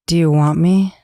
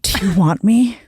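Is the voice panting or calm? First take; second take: calm; panting. First: It is said calmly, without panting. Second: It is said panting, with heavy breaths.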